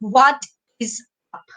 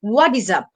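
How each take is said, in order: First: Each word is said separately with breaks. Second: The words run together without breaks. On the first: The speaker calls it wrong. "আমি কিন্তু এভাবে এটাকে উচ্চারণ করিনি" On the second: The speaker calls it right. "আমি কি বললাম"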